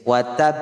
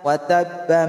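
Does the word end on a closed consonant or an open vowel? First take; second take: closed consonant; open vowel. First: The word ends on a bare consonant, no vowel. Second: The word ends on a vowel, joined onward. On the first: The reader stops after this word. "gusto mong maghinto ay uh, ganito po siyang bigkasin" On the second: The reader continues into the next verse. "Pag diretso ka ... ganito po siyang bigkasin"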